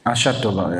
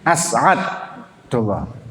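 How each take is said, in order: First: The middle consonant is an sh sound. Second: A throat catch follows the s sound. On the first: "dibacanya itu asyad, ya jadinya alif shin" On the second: "Pakai ain"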